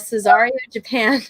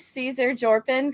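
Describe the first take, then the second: First: The name is said as Cesario Japan. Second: The name is said as Caesar Jorpin. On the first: The speaker calls it right. "So now I'm going to say it correctly from now on" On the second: The speaker calls it wrong. "R I P Caesar Jorpin"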